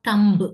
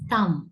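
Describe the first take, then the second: First: The word ends with a b sound. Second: The word ends with an m sound. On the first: The speaker calls it wrong. "not thumb" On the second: The speaker calls it right. "பி silent ஆயிடும்"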